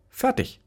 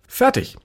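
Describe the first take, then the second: First: High fertig. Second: Loud fertig. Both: Acted.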